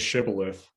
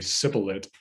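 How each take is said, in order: First: The word begins with an sh sound. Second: The word begins with an s sound. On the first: The speaker is a local. "they say say shibboleth" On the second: The speaker is from another dialect area. "The spies say sibboleth"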